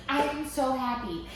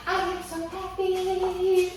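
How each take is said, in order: First: Said in the usual way. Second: Sung, slow, high sing-song "I am so happy"; sung happily. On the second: Real, not acted. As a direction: sing "I am so happy" like a little tune.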